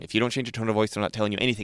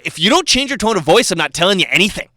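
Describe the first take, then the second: First: It is said at a calm, normal volume. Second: It is said in a raised, louder voice.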